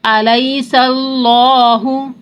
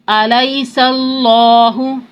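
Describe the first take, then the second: No difference in how they are said.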